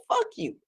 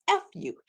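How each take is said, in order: First: The full Fuck you, much higher and softer; retelling the councilwoman's Fuck you, high; uncensored quote. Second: Said in the usual way. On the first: Retold or imitated. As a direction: give the real Fuck you, mock indignant. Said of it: "That's what she said". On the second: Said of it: "No, she didn't say "F you".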